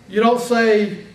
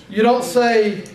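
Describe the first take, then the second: Both takes have the same delivery.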